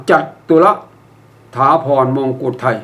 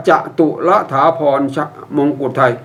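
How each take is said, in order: First: จัตุร read jat-tu-ra; correct reading. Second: จตุร read as separate short syllables, ja-tu-ra; wrong reading. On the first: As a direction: close the first syllable of จัตุร with a t, "jat". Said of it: "ให้อ่านว่า". (อ่านให้ถูกว่า จัด-ตุ-ระ) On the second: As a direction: open first syllable "ja" in จตุร, no closing t. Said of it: "อย่าอ่านว่า". (อ่านผิดเป็น จะ-ตุ-ระ แยกพยางค์) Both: Shown as a demonstration.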